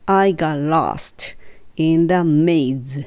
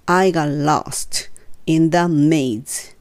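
Both takes have the same delivery.

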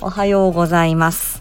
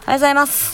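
First: The ending is placed carefully and fully pronounced. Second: The ending is tossed off lightly and trails away.

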